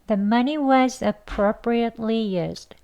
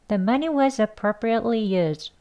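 First: The sentence is spoken at a slower pace. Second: The sentence is spoken at a faster pace.

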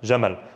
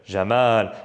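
First: The 'a' vowel is kept short. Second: The 'a' vowel is drawn out long. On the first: "Just one A, you know there's a fatha" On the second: "If I write the double A for you, you extend. You know there's an alif there"

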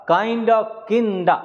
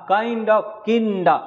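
The two takes are said the same way.

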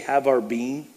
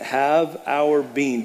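First: It is said plainly, without extra conviction. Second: It is said with strong conviction and emphasis.

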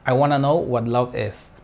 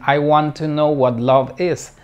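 First: Want to is blended into wanna. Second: Want to is said as two full words. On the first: The speaker calls it right. "sino I wanna know" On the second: The speaker calls it wrong. "no dicen"

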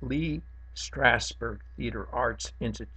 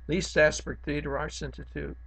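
First: The words are clearly and carefully articulated. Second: The words are slurred and not clearly articulated. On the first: The speaker calls it right. "Let me say that again" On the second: The speaker calls it wrong. "I know I'm not enunciating now"

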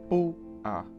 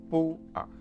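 First: The force is at the start, A reduced. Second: The force is at the start, A reduced.

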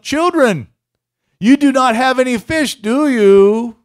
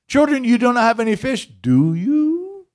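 First: It is asked in a plain, neutral tone. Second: It is asked in a teasing, mocking tone. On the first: It is a simple question. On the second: The question pokes fun at the listeners.

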